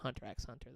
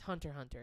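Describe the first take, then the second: First: The X is spoken between the words. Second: The X is left out between the words. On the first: "for the longest time, I called it" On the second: "you take the X out"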